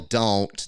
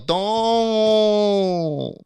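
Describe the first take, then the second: First: It is said plainly, with a clear final T. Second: It is yelled drunkenly, with no final T.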